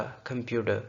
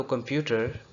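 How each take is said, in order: First: "कंप्यूटर" with a flapped d for ट; American-style flap in "कंप्यूटर"; flapped D sound. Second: Said in the usual way. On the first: Shown as a demonstration. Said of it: "हमने इसको flap D की आवाज़ में". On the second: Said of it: "जो कि था तो कंप्यूटर".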